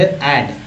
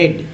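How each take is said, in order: First: The vowel is open, like 'ae'. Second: The vowel is closer, like 'e'. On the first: The speaker calls it wrong. "लोग ऐड पढ़ते हैं इसे" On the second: The speaker calls it right. "ऐड नहीं एड पढ़ना है"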